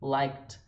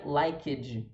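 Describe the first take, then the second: First: It ends in a light T, one syllable. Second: It adds a vowel and a strong D. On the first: The speaker calls it right. "fica um som de T bem levinho" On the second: The speaker calls it wrong. "Não é liked, liked. Você não fala o E e muito menos marca o D"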